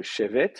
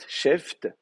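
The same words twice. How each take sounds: First: Shevet in two syllables, a vowel between v and t; shevet, final consonants split by a short e; with helping vowel. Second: Sheft in one syllable, f and t run together; sheft, ending on two bunched consonants; final consonant cluster. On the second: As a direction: say sheft with no vowel before the t. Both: Shown as a demonstration. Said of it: "on n'aime pas terminer par deux consonnes".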